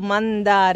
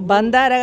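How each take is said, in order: First: The word begins with an m sound. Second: The word begins with a b sound. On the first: The speaker calls it right. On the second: The speaker calls it wrong. "బందార కాదు"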